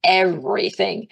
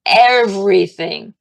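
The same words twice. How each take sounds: First: Said in the usual way. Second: EVERYTHING loud and drawn out; slow, forceful stress on "Everything"; emphatic. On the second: Real, not acted. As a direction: hit "Everything" hard and slowly. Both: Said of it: "And I mean everything".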